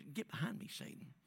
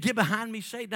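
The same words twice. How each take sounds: First: Quiet, almost offhand Get behind me, Satan; hushed pretend rebuke; soft rebuke. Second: Forceful retold command; loud rebuke. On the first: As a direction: say it softly, like a casual aside. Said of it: "just said". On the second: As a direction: Get behind me, Satan said higher and louder. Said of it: "he said".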